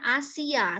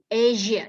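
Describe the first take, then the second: First: The middle consonant is a hissing 's' sound. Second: The middle consonant is a voiced 'zh' sound. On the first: The speaker calls it wrong. "Jangan bacanya Asia, salah" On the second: The speaker calls it right. "S I, S I, Asia"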